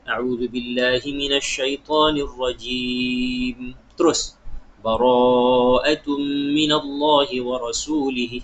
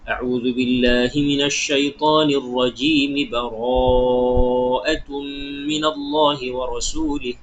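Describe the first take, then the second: First: There is a pause after rajim. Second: It runs on without a pause after rajim.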